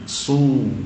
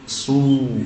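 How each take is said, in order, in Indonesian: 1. Vokalnya bunyi u yang jelas. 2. Vokalnya bunyi u yang jelas.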